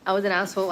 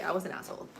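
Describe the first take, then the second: First: I was an asshole, repeated much louder; louder outburst of guilt; louder self-blame. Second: Said in the usual way. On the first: Real, not acted. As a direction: blurt it out at yourself, loud. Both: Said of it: "repeated louder".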